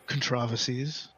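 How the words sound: It is said in an imitated British accent.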